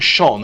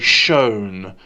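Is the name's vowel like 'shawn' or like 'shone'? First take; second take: shawn; shone. First: The name is said with the usual 'shawn' vowel. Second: The name is said with a 'shone' vowel. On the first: This is the usual way to say the name. The speaker calls it right. "instead of saying Sean" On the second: Someone else says the name this way. The speaker calls it wrong. "he'll say Shone"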